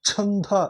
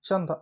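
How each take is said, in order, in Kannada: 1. ಮೊದಲ ವ್ಯಂಜನದಲ್ಲಿ ಬಲವಾದ ಉಸಿರಿನ ಹೊಡೆತ ಇದೆ. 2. ಮೊದಲ ವ್ಯಂಜನದಲ್ಲಿ ಉಸಿರಿನ ಹೊಡೆತ ಇಲ್ಲ. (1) "ಮಹಾಪ್ರಾಣದದ್ದು ಅಲ್ಪ ಪ್ರಾಣ ಆಗ್ತಾವ" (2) "ಇಲ್ಲಿ ಬಂದ್ರಪ್ಪ ಅಂದ್ರೆ ಚಂದ"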